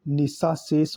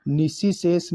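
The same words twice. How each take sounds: First: निशाशेष with long aa: "ni-saa-ses"; correct form. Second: निशिशेष with short i: "ni-si-ses"; wrong form. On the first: Teacher giving the right form: निशाशेष with middle aa. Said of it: "होता है". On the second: Teacher rejecting the wrong form: निशिशेष with middle i. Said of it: "नहीं". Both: Shown as a demonstration.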